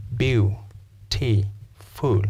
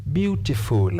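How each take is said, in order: First: "beautiful" broken into three separate beats, Beau, T, full; syllable by syllable. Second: Said in the usual way. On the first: Shown as a demonstration. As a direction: pause after each syllable of Beau-T-full. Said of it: "Your jaw drops three times". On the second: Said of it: "Beautiful has how many syllables".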